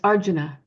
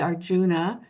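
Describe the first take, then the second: First: The stress falls where Sanskrit speakers put it. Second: The stress falls where English speakers usually put it. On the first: The speaker calls it right. "but it's Arjuna... puts the syllable on the correct syllable" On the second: The speaker calls it wrong. "as English speakers... we might say Arjuna"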